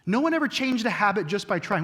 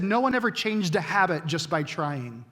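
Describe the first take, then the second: First: "one" leaned on, the line pressed home; emphatic repeat. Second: Said in the usual way. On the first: Shown as a demonstration. Pastor repeats the quote so the congregation catches it, emphatic. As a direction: hammer the quote home a second time.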